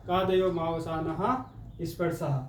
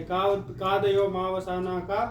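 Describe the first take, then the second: First: "कादयो मावसानः स्पर्शः" slow and syllable by syllable, falling at the end; sutra recited as answer. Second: "कादयो मावसानः" slow, rising at the end like an exam question; sutra asked as question. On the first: Teacher to students, reciting the sutra answer, slow falling recitation. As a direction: recite "स्पर्शः" to a firm, final fall. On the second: Teacher to students, posing the sutra as an exam question, rising tune. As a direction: slowly quiz "कादयो मावसानः का" with a lifted end. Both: Shown as a demonstration. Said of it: "प्रश्न ऐसे भी पूछ लिया जाता है".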